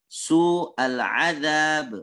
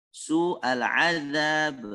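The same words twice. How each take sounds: Both takes have the same delivery.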